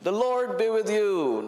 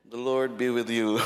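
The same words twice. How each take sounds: First: It is said with lively, youthful energy. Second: It is said in a tired, weary way.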